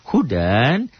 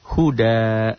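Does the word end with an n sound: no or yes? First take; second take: yes; no. First: The word ends with a final n sound. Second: The word ends on a long a vowel. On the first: The reading continues into the next word. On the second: The reading stops on this word.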